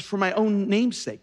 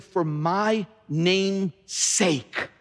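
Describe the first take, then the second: First: Said in the usual way. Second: MY, name's, sake set apart very slowly; slow, deliberate weight on each word of "my name's sake"; weighty stress. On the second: Shown as a demonstration. Repeats verse slowly for weight.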